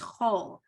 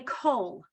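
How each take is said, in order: First: The word begins with a throaty ch sound. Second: The word begins with a hard k sound. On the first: The speaker calls it right. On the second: The speaker calls it wrong. "the common mistake people make is they say kol when it has no dot in it"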